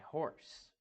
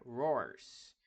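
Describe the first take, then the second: First: The word begins with an H sound. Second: The word begins with an R-like sound. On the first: The speaker calls it right. "horse é horse" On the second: The speaker calls it wrong. "horse não é roars"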